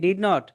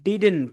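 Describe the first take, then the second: First: Two full words are said, did and not. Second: One contracted word is said with a final t. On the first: The oldest generation's way of saying it. "দাদার বাপে উচ্চারণ করতো কি? ডিড নট" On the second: The next generation's way of saying it. "তারপরে দাদা উচ্চারণ করলো হলো ডিডেন্ট"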